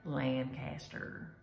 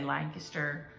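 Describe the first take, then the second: First: The syllables are said fully and separately. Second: The syllables are run together quickly. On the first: This is how locals do not say it. "we don't say Lancaster" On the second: This is how locals say it. "we say Lancaster ... we do kind of push everything together"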